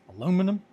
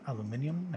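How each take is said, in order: First: It is said the American way. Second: It is said the British way. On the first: "Here it's aluminum" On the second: "one of the reps ... was British"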